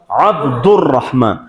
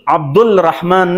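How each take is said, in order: First: The L is silent, merging into the r. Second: The L before Rahman is pronounced. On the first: The speaker calls it right. "الف لام دو خوانده نمیشه" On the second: The speaker calls it wrong. "نیست"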